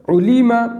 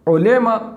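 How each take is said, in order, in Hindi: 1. स्वर शुद्ध 'u' और 'i' की ध्वनियाँ हैं। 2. स्वर 'o' और 'e' की ओर झुकाए गए हैं। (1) "मारूफ पढ़ना है।" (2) "कितना बेकार लगता है, इसलिए इसको पढ़ना नहीं है।"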